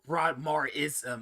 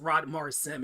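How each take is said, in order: First: The name ends in 'ism', with four syllables. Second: The name ends in 'sim', with three syllables. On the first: It sounds like the name of a religion. The speaker calls it wrong. "It makes it sound like it's some sort of religion" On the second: It is built from the owner's first, middle and last names. The speaker calls it right. "It's three syllables, not four"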